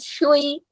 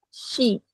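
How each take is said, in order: First: An extra 'u' sound slips in before 'i'. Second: The 'sh' goes straight into a pure 'i'. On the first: The speaker calls it wrong. "jangan ada selipan huruf wau" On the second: The speaker calls it right. "harokat itu harus pure"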